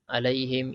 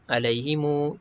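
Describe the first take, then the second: First: It ends on m with no vowel after. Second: A short u vowel follows the final m. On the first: "Wajah pertama matikan je" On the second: "silah dengan dua harakat"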